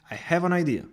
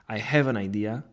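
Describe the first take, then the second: First: It is confident and full of energy. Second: It is flat, quick and without emphasis. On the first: Something important is about to happen. "delivered with confidence and energy" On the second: It is a neutral statement. "in a flat tone, quickly and without emphasis"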